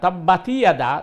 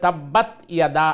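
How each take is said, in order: First: An extra 'i' vowel links the two words. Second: The 't' ends without any added vowel. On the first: The speaker calls it wrong. "যদি বলেন তাহলে এটা ভুল হয়ে যাবে" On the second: The speaker calls it right. "আয়াত হবে"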